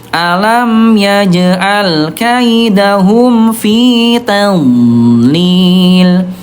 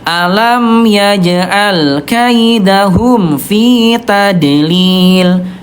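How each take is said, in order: First: The d sound in tadlil flows softly. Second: The d sound in tadlil bounces sharply. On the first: The speaker calls it right. "suaranya lemah mengalir" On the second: The speaker calls it wrong. "Yang saya mantul tadlil"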